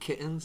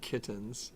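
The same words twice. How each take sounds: First: The middle T is a glottal stop. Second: The middle T is a full T sound. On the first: "You just use the glottal stop" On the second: "and then you use the regular T"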